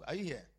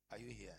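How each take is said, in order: First: Said in the usual way. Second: Whispered check-in with the church. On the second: Real, not acted. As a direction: drop to a bare whisper. Preacher checks on congregation.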